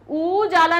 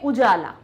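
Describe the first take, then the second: First: The first vowel is a long u. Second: The first vowel is a short u. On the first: The speaker calls it wrong. "बड़ा ऊ नहीं निकलता है, उजाला नहीं बोलते" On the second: The speaker calls it right. "हम क्या बोलते हैं"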